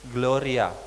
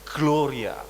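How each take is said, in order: First: The opening G is slurred and barely heard. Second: The opening G is clearly and crisply pronounced. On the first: The speaker calls it wrong. "Kita mau selancar-selancar aja gitu" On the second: The speaker calls it right. "harusnya glo, gloria, seperti itu"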